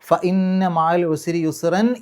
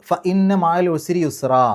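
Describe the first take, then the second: First: The last word ends with a clear n sound. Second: The last word ends on a lengthened vowel. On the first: The recitation continues into the next verse. "ചേർത്തി ഓതുകയാണെങ്കിൽ ... യുസ്റൻ എൻ എന്നുള്ള ശബ്ദം പുറത്തേക്ക് കേൾക്കുന്ന രൂപത്തിലാണ്" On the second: The recitation stops at the end of the verse. "അവിടെ നിർത്തി ഓതുകയാണെങ്കിൽ"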